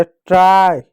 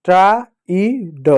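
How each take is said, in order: First: Said in the usual way. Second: Slow demo reading. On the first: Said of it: "अब इसको कैसे पढ़ेंगे?". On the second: Shown as a demonstration. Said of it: "अब tried कैसे हुआ?".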